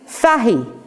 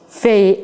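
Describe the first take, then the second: First: The surname is said the Irish way. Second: The surname is said the American way. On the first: "An example is Fahy" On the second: "It is always called Faye, as in F A Y"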